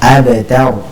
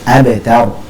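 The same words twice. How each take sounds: The two takes are said the same way.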